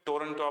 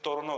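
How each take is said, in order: First: The t after the n is sounded. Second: The t after the n is dropped. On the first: The speaker calls it wrong. "ટોરન્ટો આપણે બોલે છે" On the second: The speaker calls it right. "એનું pronunciation ટોરનો થાય છે"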